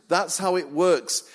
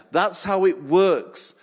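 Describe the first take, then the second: First: Said in the usual way. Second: That's how it works, slowed and louder, every word landed; deliberate punchline; slow emphatic. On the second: Shown as a demonstration. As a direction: hammer the line home slowly.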